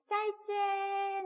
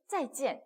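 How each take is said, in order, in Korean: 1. 음높이는 평평하게 유지되고 끝은 길게 늘어져요. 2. 두 음절 모두 확 떨어지고 끝은 짧게 끝나요. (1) "짜이찌엔 막 이래요... 성조가 없어졌어요... 일성으로" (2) "짜이찌엔 이렇게 못하고"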